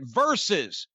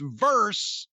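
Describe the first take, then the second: First: The word is said with two syllables. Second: The word is said with one syllable. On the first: The speaker calls it right. "It's fucking Versus. V E R S U S" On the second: The speaker calls it wrong. "it sounds so stupid when somebody ... does not know how to pronounce the word versus"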